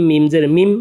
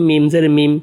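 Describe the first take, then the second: The two takes are said the same way.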